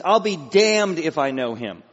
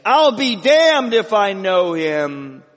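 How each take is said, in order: First: Loud, slow emphatic oath; self-cursing oath. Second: High, loud, drawn-out swearing; cried-out oath. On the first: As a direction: swear it forcefully and deliberately. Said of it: "that's a self-curse". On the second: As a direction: cry it out slowly, stretching the words. Acting Peter mid-curse before crow. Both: Acted.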